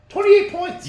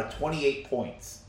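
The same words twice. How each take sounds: First: Loud, very high-pitched disbelief; incredulous. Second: Said in the usual way. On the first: Real, not acted. Co-host repeating the average winning margin, incredulous.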